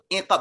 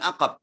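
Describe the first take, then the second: First: The first vowel is an i sound. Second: The first vowel is an a sound. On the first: The speaker calls it right. "iqab bukan aqab" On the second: The speaker calls it wrong. "bukan aqab"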